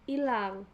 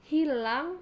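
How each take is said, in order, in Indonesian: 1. Kata ini langsung dimulai dengan vokal. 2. Kata ini dimulai dengan bunyi h. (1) "penghilangan fonem H"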